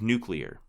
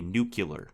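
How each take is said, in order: First: The ending sounds like the word clear. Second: The ending sounds like cue-lar, not clear. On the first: The speaker calls it right. "instead of" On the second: The speaker calls it wrong. "a common linguistic mistake people make when they pronounce it"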